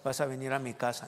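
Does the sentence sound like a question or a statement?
statement. It is said flatly, without a questioning intonation. The speaker calls it wrong. "no de"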